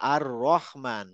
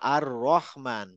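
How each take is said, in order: First: The vowel after 'r' is a rounded 'o'. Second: The vowel after 'r' is a rounded 'o'.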